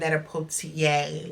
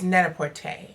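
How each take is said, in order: First: The ending is said like 'portier'. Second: The ending is said like 'porter'. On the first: The speaker calls it wrong. "It's not Net-a-Portier like what I said in that last video" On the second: The speaker calls it right. "it's Net-a-Porter"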